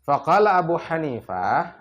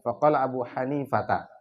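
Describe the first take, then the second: First: The name ends in a clipped 'ah' sound. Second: The name ends in a full 'ata' sound.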